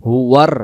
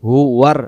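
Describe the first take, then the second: Both takes have the same delivery.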